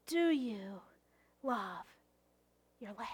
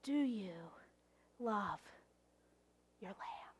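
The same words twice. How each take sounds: First: Softer asking. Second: Hushed, intimate whisper. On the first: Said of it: "No, really". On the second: Pastor asking the congregation, whispered. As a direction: whisper the question close. Repeated question, now whispered. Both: Acted.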